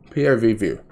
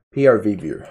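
First: Said in the usual way. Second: Says "P R V" instead of POV; "P R V view", R for O. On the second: Shown as a demonstration. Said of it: "this is P R V view".

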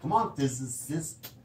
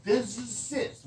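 First: Physicist slurred, sounding like fizzicist; mumbled word. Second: Physicist said slowly, syllable by syllable; careful word. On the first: Real, not acted. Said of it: "You can't even say the word". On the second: Shown as a demonstration. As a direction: physicist drawn out deliberately. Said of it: "I just did".

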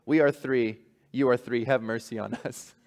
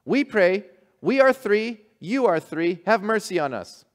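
First: Gentle bishop. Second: High, loud, earnest simple voice; eager fishermen. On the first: Humbled bishop gently telling fishermen to keep their prayer. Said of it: "Go back to your home". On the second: Fishermen proudly telling the bishop their prayer. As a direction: proudly recite like simple island folk. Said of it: "What do you say then when you pray?". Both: Acted.

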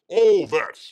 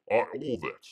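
First: All that shouted out, much louder. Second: Said in the usual way. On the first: Acted. Host riffing on Aussie clichés for the chat, loudly. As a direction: punch out All that with a loud mock Aussie flourish. Repeats phrase, then louder.

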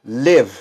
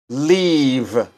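First: "live," with a short, clipped i. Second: "leave." with a long, stretched ee. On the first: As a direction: say "live," with a quick short vowel. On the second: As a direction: draw out the ee in "leave.". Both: Shown as a demonstration.

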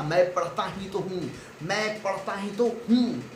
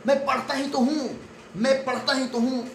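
First: Said in the usual way. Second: Mock angry talk-back, pitched up; angry retort. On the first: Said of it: "एक sentence आया जिसका नाम था". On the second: The kid answers the scolding parents back, in mock anger. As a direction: snap back at the parents, stressing पढ़ता. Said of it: "anger create होता है और आप बोलते हैं".

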